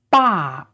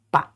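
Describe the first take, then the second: First: Full, stressed falling BA; fourth tone. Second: Unstressed, toneless little BA; neutral tone. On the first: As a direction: drop the pitch firmly through a long BA. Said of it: "this time is a fourth tone". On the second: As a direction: clip BA short, with no tone. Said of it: "pronounced very short and". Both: Shown as a demonstration.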